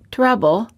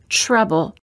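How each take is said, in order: First: The T before the R sounds like a plain T. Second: The T before the R sounds almost like ch. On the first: The speaker calls it wrong. "Instead of saying trouble" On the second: The speaker calls it right. "we say trouble"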